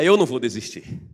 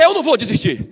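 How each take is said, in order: First: It is said at normal volume. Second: It is shouted at full volume.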